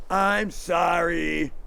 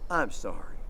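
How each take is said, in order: First: Careless sorry. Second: Sincere sorry. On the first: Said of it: "That doesn't mean anything". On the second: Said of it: "But if you sincerely mean it". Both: Shown as a demonstration.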